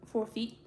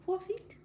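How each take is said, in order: First: Said in the usual way. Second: "Four feet" said again much higher, rising on four; stressed repeat. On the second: Shown as a demonstration. Telling viewers how high to build the fence, stressing "Four feet". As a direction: lift "Four feet" up to drive it home.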